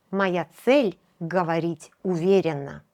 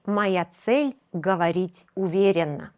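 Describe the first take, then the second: No difference in how they are said.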